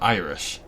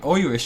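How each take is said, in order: First: The word is said in a standard accent. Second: The word is said in an Irish accent. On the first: "instead of Irish" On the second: "Irish for me is literally just saying Irish"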